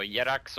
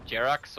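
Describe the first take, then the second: First: "Yerax" with a Y sound in place of J; alternative pronunciation. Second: "Jerax" with an English J sound; usual pronunciation. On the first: Caster weighing how to say a player's name, Y pronunciation. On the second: Caster weighing how to say a player's name, usual J pronunciation. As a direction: say "Jerax" starting with a hard J. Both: Shown as a demonstration. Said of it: "there is a pronunciation that's correct".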